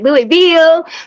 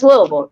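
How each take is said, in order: First: The name is said the way outsiders say it. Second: The name is said the way locals say it. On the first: Someone from elsewhere is saying it. The speaker calls it wrong. "Everybody fucks our city name. They'd be like" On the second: Someone from the city is saying it. The speaker calls it right. "baby, it's Louisville"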